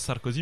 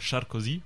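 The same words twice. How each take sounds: First: The name begins with a plain s sound. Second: The name begins with an sh sound. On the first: This is the usual French way of saying the name. The speaker calls it wrong. "normalement, il s'appelle pas Sarkozy" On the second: This is the original Hungarian way of saying the name. The speaker calls it right. "Le S, normalement, ça se prononce che en hongrois"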